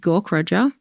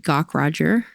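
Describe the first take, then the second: First: The name is said with an Australian accent. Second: The name is said with an American accent.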